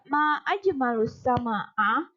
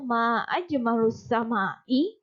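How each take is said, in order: First: The last word ends with an 'a' vowel. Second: The last word ends with an 'i' vowel. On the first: It expresses wonder at how beautiful the sky is. "kalimat yang kedua berharokat fathah" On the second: It asks what is beautiful about the sky. "hamzahnya berharokat kasroh"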